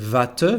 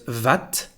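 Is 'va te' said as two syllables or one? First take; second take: two; one. First: It is said as two full syllables. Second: It is contracted into one syllable, vat. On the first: The speaker calls it wrong. "we don't say va te" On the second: The speaker calls it right. "but vat"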